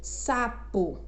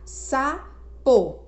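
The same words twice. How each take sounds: First: Said in the usual way. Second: "Sapo" said as sa, pause, po; split into syllables. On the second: Shown as a demonstration. Teacher separating the example word, "Sapo" split sa, po. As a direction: break "Sapo" into two clear syllables. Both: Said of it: "Aí vamos separar?".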